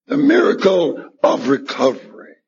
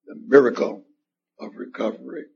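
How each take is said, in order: First: "The miracle of recovery" said again, stronger, stress on "miracle"; emphatic repeat. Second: Said in the usual way. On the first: Real, not acted. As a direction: hit "miracle" hard the second time.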